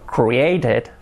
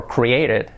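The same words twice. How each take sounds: First: "created" with a clear T, "cree-ay-ted"; careful full pronunciation. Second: "created" with a flapped T, "cree-ay-ded"; fast-speech pronunciation. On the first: Teacher models the past tense, careful pronunciation demo. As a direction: sound every syllable of "created", crisp T. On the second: Teacher shows how it is said quickly, casual pronunciation demo. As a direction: soften the T in "created" to a quick tap. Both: Shown as a demonstration. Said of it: "dicho rápido".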